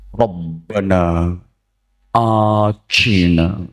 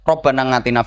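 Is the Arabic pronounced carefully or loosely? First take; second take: carefully; loosely. First: The Arabic sounds are pronounced carefully and precisely. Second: The Arabic sounds are pronounced loosely, in local style. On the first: A trained boarding-school teacher is praying. "Nek ustad yo fawasih dongane" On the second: An unschooled village cleric is praying. "blas ora fase"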